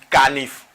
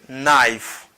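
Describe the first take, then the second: First: The word begins with a k sound. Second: The word begins with an n sound. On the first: The speaker calls it wrong. "yo seulement prononcer K et puis yo dit nif" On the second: The speaker calls it right. "Mot ça prononcé comme knife"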